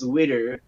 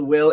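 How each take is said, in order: First: It is said with a Japanese accent. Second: It is said with an ordinary English accent.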